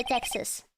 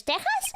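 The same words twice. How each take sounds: First: "Texas" with a clear ks for the x; English pronunciation. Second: "Texas" with a throaty Spanish h-sound for the x; Spanish pronunciation. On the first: Player asking which way English says it, English pronunciation of "Texas" with ks. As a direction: say "Texas" the English way, "TEK-sus". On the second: Player asking which way English says it, Spanish pronunciation of "Texas" with an h-sound. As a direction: say "Texas" as Spanish "TEH-has". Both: Shown as a demonstration. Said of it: "How do you pronounce it in English?".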